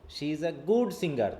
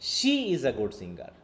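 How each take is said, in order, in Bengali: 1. শব্দ good-এ জোর আছে। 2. শব্দ she-এ জোর আছে। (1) "সিঙ্গার হিসাবে সে কেমন, সেটাকে ফোর্স দেওয়া হচ্ছে" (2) "অন্য কেউ না, শুধু সে গুড সিঙ্গার"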